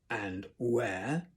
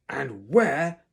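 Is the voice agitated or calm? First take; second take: calm; agitated. First: The voice sounds dangerously calm. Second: The voice sounds agitated, not calm.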